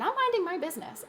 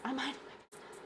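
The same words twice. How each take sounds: First: Said in the usual way. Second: Much softer, mock innocent murmur; softly feigning innocence. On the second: Shown as a demonstration. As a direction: say it meekly, all innocence. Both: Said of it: "repeats line, second much softer".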